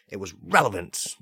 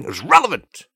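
First: Said in the usual way. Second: Higher and louder, punching relevant; triumphant. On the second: Shown as a demonstration. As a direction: announce relevant proudly.

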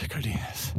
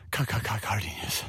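First: Said in the usual way. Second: "Ca-, ca-, ca-, Cardenas" with the first syllable repeated; stuttered name. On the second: Shown as a demonstration. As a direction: stutter the start of "Cardenas" playfully.

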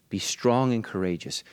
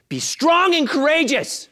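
First: Said in the usual way. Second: High, slow, loud exhortation; rising to a shout. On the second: Acted. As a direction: build to a full-voiced cry. Third time, building to shout.

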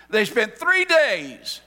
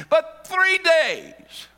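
First: "three" stretched and lifted, slow and louder; stress on three. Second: "three" pitched high, drawn out very slowly; stress on three. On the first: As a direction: lean hard on "three". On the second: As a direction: hit "three" high and slow. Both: Shown as a demonstration.

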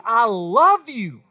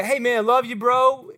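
First: LOVE stretched out slowly and stressed; deliberate declaration with a drawn-out "love"; emphatic, heartfelt. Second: Offhand, even-toned buddy talk; light, throwaway bro affection; casual. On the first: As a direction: lean hard and slow on the word love. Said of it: "No, he means". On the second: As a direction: toss it off like a passing remark to a pal. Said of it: "It's not just a, a, like a". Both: Acted.

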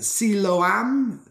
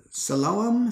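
First: Siloam slowly sounded out as SEE-lo-am; unsure pronunciation. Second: Siloam as suh-LO-um, weak first syllable; second-guess pronunciation. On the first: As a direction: try Siloam haltingly, long SEE, clear AM. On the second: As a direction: try Siloam with stress on LO. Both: Real, not acted. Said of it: "someone who's Hebrew, correct me, please".

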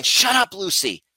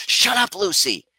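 First: "Shut up" flung out much higher and louder, "Lucy" dropping back; snapping at the dog. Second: Sudden high sharp "Shut up, Lucy"; snapping at the dog. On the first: Retelling how she snaps at barking Lucy, sharp high yell. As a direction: bark it at the dog, pitch shooting up. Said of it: "and going". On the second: Owner snapping at her barking dog, sharp and high. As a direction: snap it at a barking dog, much higher and louder. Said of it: "I'm like". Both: Retold or imitated.

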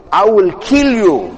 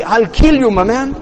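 First: Slow, measured mock threat; acted threat, drawn out word by word; enraged threat. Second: Higher-pitched everyday threat; retold threat in street terms, pitched up; colloquial threat. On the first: Enraged Umar threatening Zayd, acted slow threat. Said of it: "bloodshot red". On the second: Umar's threat in our terms, colloquial mock threat. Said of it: "In, in our terms".

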